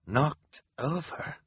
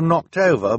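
First: Slow, high, drawn-out question; incredulous repetition. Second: Higher, louder, pleading delivery; earnest apology. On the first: Hal repeating Klaus's words back, slow and incredulous. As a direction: echo it slowly in disbelief. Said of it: "Hal repeated". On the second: Klaus apologizing to Hal about cabinets, earnest. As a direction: say it as an earnest admission. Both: A narrator's reading.

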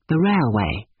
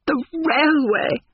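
First: Said in the usual way. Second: High, drawn-out gasp of amused shock; shrieky, slow, scandalised disbelief. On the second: A narrator's reading. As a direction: echo it aghast, voice leaping right up. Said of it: "gasped Miss Lavish".

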